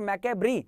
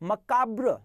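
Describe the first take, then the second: First: It ends with an added 'ee' vowel sound. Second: It ends on the consonant 'br' sound. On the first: The speaker calls it wrong. "Is not मैकेब्री" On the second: The speaker calls it right. "This is called मकाब्र"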